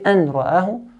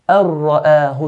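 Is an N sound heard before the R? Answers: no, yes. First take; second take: yes; no. First: An N sound is heard before the R. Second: The N merges fully into a doubled R. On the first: The speaker calls it wrong. "We don't say an ra'ahu" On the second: The speaker calls it right. "we completely take the noon off"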